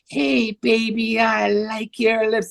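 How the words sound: It is said in a young, girlish voice.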